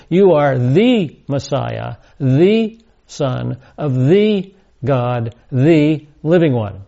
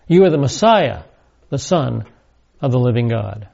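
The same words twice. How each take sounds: First: Each "the" said "thee", drawn out and set apart; slow, emphatic reading that leans on every THE; stress on THE. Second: Said in the usual way. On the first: Shown as a demonstration. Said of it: "the word the". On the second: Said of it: "a literal Greek rendering".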